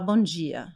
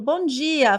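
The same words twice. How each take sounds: First: The greeting is said in a low, grave voice. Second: The greeting is said in a bright, lively voice. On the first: The speaker calls it wrong. "só uma voz grave" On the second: The speaker calls it right. "em vez de falar"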